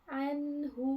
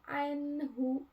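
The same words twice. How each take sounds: Both takes have the same delivery.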